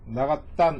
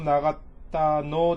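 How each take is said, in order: First: The word 'no' is clipped to a bare 'n'. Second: The word 'no' is said as a full syllable.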